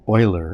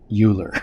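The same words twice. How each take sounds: First: The name is not said as it is spelled. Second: The name is said just as it is spelled. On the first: The speaker calls it right. "how to say Euler" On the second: The speaker calls it wrong. "and not"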